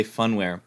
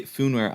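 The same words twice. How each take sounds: First: "funware." with first syllable like fun; variant pronunciation. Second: "foonware," with a long oo in the first syllable; variant pronunciation. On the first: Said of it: "I say". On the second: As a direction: say "foonware," as FOON-ware. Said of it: "you say". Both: Shown as a demonstration.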